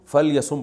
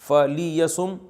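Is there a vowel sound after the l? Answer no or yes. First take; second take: no; yes. First: The l sound has no vowel after it. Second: A short i vowel follows the l sound.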